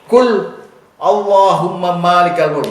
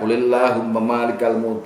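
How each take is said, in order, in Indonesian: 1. Ada jeda yang memisahkan kata pertama dari sisanya. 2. Kata pertama langsung menyambung ke kata berikutnya. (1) "bisa dibaca pisah wakaf" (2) "tetap baca kulillahumma malikal mulk"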